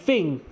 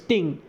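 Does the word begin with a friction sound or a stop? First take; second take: friction; stop. First: The word begins with a hissing friction sound. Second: The word begins with a sharp stop sound.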